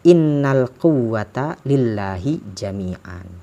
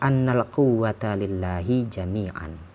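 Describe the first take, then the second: First: The first word begins with an 'i' vowel. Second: The first word begins with an 'a' vowel. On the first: You would say that all power belongs to God. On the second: The wrongdoers would see that all power belongs to God.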